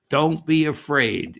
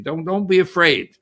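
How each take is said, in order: First: Said in the usual way. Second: Don't be afraid called out louder and higher, "be" leaned on; stressed reassurance. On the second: Shown as a demonstration. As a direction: lift it like a comforting call across water.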